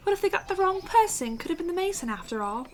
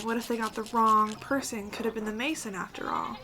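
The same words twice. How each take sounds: First: High-pitched, bad British accent. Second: Said in the usual way. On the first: Game player rereading the villager's gossip, in a British accent. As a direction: put on a terrible British accent. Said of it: "felt British. And that was a terrible accent".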